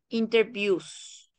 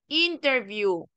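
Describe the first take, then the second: First: The stress is on the last syllable. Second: The stress is on the first syllable. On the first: It is used as a verb. "el acento oral cambia la última sílaba" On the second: It is used as a noun. "donde se enfatiza en la primera sílaba"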